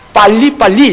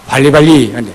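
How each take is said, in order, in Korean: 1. 첫 자음은 된소리라 세고 딱딱해요. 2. 첫 자음은 평음이라 부드러워요. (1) "빨리빨리 이건데" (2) "발음도 정확하지 않아요"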